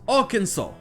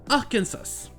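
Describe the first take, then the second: First: It is pronounced with American English sounds. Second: It is pronounced with French sounds. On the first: "en anglais américain, la prononciation est bien différente" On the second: "qu'on appelle en français le Arkansas"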